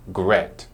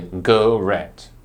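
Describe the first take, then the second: First: No vowel is sounded between the g and r. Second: A vowel is sounded between the g and r. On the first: The speaker calls it right. "but we will say gret" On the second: The speaker calls it wrong. "we won't say garette"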